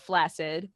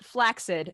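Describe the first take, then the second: First: The middle sounds like a single s. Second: The middle sounds like a hard k then s. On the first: The speaker calls it wrong. "Most people pronounce it to rhyme with acid" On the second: The speaker calls it right. "The standard pronunciation is flaccid"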